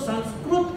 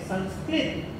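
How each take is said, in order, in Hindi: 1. अंतिम अक्षर में 'i' के अलावा कोई और स्वर है। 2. अंतिम अक्षर 'krit' है, जिसमें 'i' स्वर है। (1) "वो उनकी भाषा में संस्कृत को वो संस्कृत कहते हैं" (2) "संस्कृत शब्द का उच्चारण आप करेंगे संस्कृत"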